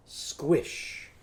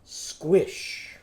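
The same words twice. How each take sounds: First: "Squish" whispered more softly; softer whisper. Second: "Squish" whispered with no voice. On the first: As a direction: hush "Squish" quietly. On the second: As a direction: breathe out "Squish". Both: Shown as a demonstration. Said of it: "It's just gonna be a what?".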